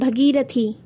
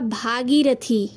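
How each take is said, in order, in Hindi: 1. पहला स्वर ह्रस्व है। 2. पहला स्वर दीर्घ है।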